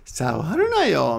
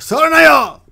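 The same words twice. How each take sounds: First: The command is said in a soft, gentle way. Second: The command is said in a strong, forceful way. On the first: A mild, friendly request not to touch. "means come on, man, don't touch that" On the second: A firm order not to touch. "could be stronger"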